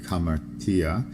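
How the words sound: It is said in a medieval Greek way. "But in medieval Greek"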